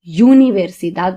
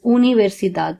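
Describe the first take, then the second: First: The first vowel sounds like English 'you'. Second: The first vowel sounds like 'oo'. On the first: The speaker calls it wrong. "Many people have the tendency of pronouncing this word as universidad, but it is not" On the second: The speaker calls it right. "It is universidad because in the Spanish alphabet, the letter U is pronounced as U"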